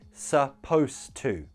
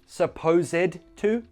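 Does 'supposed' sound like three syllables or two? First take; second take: two; three. First: The ending of supposed adds no extra syllable. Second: The ending of supposed is said as an extra syllable. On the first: The speaker calls it right. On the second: The speaker calls it wrong.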